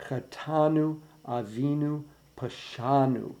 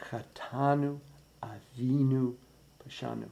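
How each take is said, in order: First: Chetanu, Avinu, Pashanu with a little extra weight on the second syllable of each. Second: Chetanu, Avinu, Pashanu softer, no syllable standing out, fading away at the end; nothing sticking out. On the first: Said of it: "The more important syllable, the second syllable". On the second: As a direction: keep every first note soft and even. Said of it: "None of those first notes should stick out". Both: Shown as a demonstration.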